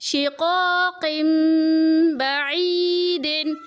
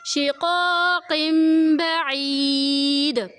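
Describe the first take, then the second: First: The last word ends with a -din sound. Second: The last word ends on a bare d sound. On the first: The reader carries on without stopping. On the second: The reader stops at this word.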